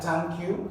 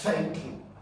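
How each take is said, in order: First: It begins with a hard t sound. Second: It begins with a soft breathy th sound. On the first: The speaker calls it wrong. "that's not like thank you" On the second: The speaker calls it right. "just note that it is F. That's thank you"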